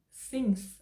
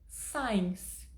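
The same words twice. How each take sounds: First: Since with a short clear i, said slowly, like "sins"; careful slow since with an English short i; correct since. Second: Signs said like "sines", a long ai vowel where since belongs; the Brazilian learner's error: signs with ai; slow mispronounced signs with the alphabet I; wrong pronunciation. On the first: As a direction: stretch out since, vowel as in "sit". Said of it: "ela é a pronúncia correta". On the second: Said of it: "e tá errado". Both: Shown as a demonstration.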